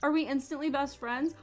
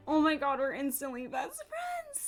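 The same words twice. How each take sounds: First: High, loud, quick question rising at the end; excited question. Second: High squealed exclamation, falling at the end; overjoyed gushing. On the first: Player to her new game puppy, excited question. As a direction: ask it eagerly, pitched up. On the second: Player bonding with her game puppy, overjoyed gushing. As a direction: burst out high, as if overcome. Answers own question about the puppy. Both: Real, not acted.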